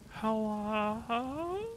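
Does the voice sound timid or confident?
timid. It sounds timid and scared.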